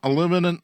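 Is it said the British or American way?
American. It is said the American way, four syllables.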